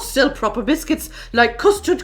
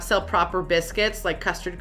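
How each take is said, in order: First: It is read in a put-on British accent. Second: It is read in a plain American accent.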